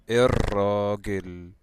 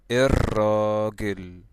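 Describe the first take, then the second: Both takes have the same delivery.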